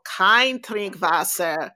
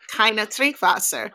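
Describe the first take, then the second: First: "kein" said as one syllable, slowly; corrected German. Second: "keine" said in two syllables, ending in an uh; misremembered German. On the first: Tour guide correcting the tourist's German, corrected pronunciation. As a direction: say "kein" like KINE, slow and clear before "Trinkwasser". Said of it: "And he's like". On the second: Tourist quoting the sign to the tour guide, misremembered German. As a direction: say "keine" as KY-nuh before "Trinkwasser". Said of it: "Yeah, like". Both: Retold or imitated.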